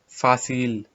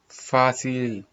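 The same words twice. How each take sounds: First: The c is pronounced like s. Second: The c is pronounced like s.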